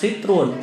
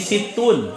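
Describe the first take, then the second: First: The middle has an r-like sound before -un. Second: The middle has a plain t sound before -un. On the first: The speaker calls it wrong. "bukan sitrun" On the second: The speaker calls it right. "tapi situn, enam"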